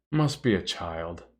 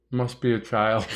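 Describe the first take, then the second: First: Lower, softer and slow, like a calm parent; calm parental voice. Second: Said in the usual way. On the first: Retold or imitated. Streamer echoing a chat message as a calm parent. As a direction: say it like an unbothered parent reading a text. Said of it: "in a very parental text voice". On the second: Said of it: "I like how you say that".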